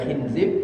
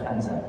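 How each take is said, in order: First: The first vowel sounds like 'i'. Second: The first vowel sounds like 'a'. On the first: "Boleh dibaca khinzib" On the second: "boleh dibaca khanzab"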